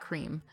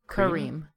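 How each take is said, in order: First: The name is squeezed into a single syllable. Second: The name is said with two full syllables. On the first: The speaker calls it wrong. "Not cream" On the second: The speaker calls it right.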